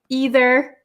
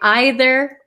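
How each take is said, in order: First: It is said the American way. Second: It is said the British way. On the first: "I am from America... And I say either and neither" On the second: "especially um, British people, I think, say either or neither"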